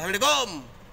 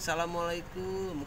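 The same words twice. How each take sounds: First: It is said loudly and roughly. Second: It is said softly and gently.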